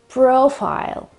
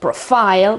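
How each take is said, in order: First: The stress is on the first syllable. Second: The stress is on the last syllable. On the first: The speaker calls it right. "with the accent at the beginning again, on the O sound" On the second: The speaker calls it wrong. "It's not at the end of the word, it's not profile"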